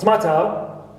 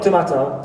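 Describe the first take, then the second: First: The weak vowel after the t is dropped. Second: The weak vowel after the t is pronounced. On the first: The speaker calls it right. "shva comes after pataka, it is omitted, like in tomato" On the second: The speaker calls it wrong. "not tomato"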